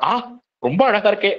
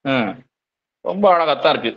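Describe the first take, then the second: First: It sounds warm and genuinely delighted. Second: It sounds grudging and mockingly insincere. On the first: The drawing is truly admired. "நமக்கு பிடிச்சவங்க வரைஞ்சா" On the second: The praise is not really meant. "நமக்கு பிடிக்காதவங்க வரைஞ்சா"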